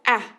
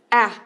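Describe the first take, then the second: First: The vowel is short and clipped. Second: The vowel is short and clipped.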